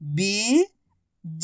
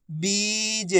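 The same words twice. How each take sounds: First: बीज split as बी, long pause, ज; syllable by syllable. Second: बीज joined as one soft word with long ee; blended word. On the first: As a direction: sound out बीज slowly, बी rising, then ज alone. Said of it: "एक अक्षर की पहचान करो, उनका उच्चारण करो". (बीज को अक्षर-अक्षर अलग बोलें) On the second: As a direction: blend बी and ज into बीज without a gap. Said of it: "तो मिलके बन जाएगा". (बीज को मिलाकर बोलें) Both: Shown as a demonstration.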